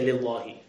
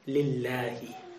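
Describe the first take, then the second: First: The L sound is heavy, with a full mouth. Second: The L sound is thin, said with a smile. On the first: The speaker calls it wrong. "You're not going to say Lillahi" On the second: The speaker calls it right. "you're going to say it with a smile. It's going to be thin"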